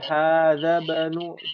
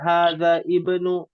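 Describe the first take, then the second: First: The vowel is dropped, linking the two words. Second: The vowel starting ibnu is pronounced separately. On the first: The speaker calls it right. "tapi hadza banu, karena itu adalah hamzah wasal" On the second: The speaker calls it wrong. "bukan hadza ibnu"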